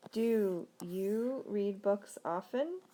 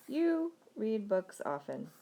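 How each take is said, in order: First: Very slow question, rising on "often"; question intonation. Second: Slow demo statement, stretched YOU, falling through "often"; statement intonation. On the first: Teacher turns the statement into a question, slow rising intonation. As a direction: stretch "Do you" and lift "often" upward at the end. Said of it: "change that to a question". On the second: Teacher models an English statement for learners, slow falling intonation. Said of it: "wanna make a statement". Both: Shown as a demonstration.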